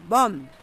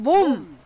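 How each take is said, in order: First: The vowel is a rounder arae-a sound. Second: The vowel is a plain o sound. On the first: It means a kind of seaweed. "바닥에 나는 몸 먹는 건" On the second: It means the human body. "사람 몸은"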